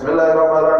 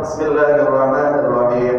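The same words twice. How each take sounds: First: It is rushed, with the sounds slurred together. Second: It is quick, but every sound is distinct. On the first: The recitation is invalid to follow. The speaker calls it wrong. "Kalau sampai baca Fatihahnya itu tidak jelas, misalnya" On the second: The recitation is still valid. The speaker calls it right. "Kalau cepat itu masih terlihat jelas per hurufnya"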